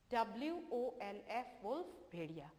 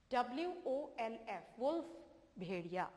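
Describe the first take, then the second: No difference in how they are said.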